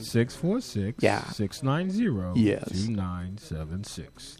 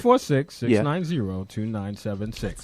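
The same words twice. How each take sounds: First: The number is said slowly. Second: The number is said quickly.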